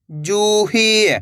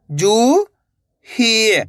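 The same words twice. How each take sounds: First: जूही joined, long vowels; blended word. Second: जू, long pause, ही; जूही split slowly, rising then falling; syllable by syllable. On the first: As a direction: say जूही as one drawn-out word. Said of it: "तो मिलके बन जाएगा". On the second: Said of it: "एक अक्षर का उच्चारण करना है". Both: Shown as a demonstration.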